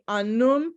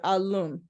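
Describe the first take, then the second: First: The word has an N sound in the middle. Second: The word has an L sound in the middle. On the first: The speaker uses the Massachusett N dialect. "Massachusetts speakers would say anum" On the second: The speaker uses the Nipmuc L dialect. "Nipmuc speakers would say alum"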